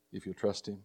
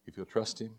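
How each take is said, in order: Both takes have the same delivery.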